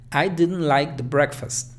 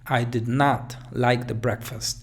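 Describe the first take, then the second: First: The negative is contracted to "didn't" and stressed. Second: The negative is said in full, "did not", very emphatically. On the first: The speaker did not like it. "allí estoy dando énfasis al didn't" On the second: The speaker really did not like it. "incluso más enfático"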